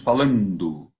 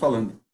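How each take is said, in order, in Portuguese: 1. É dito com um sotaque que não é o de Pindamonhangaba. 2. É dito com o sotaque de Pindamonhangaba. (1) "em Pindamonhangaba não falamos" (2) "nós falamos"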